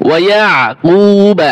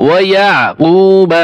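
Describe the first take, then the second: The two takes are said the same way.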